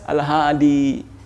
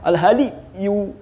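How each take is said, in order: First: The word stops short without a final 'yu'. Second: The word ends with a full final 'yu' syllable. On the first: This is the shortened form that Arabic speakers actually use. "Makanya dia ringkas al-hadi" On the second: This is the full underlying form with its case vowel. "Sebenarnya dia yu"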